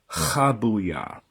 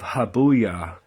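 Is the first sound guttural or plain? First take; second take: guttural; plain. First: It starts with a rough H from the throat. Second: It starts with a plain, light H sound. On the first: The speaker calls it right. "a guttural H, like further back in the throat" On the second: The speaker calls it wrong. "instead of Habuya"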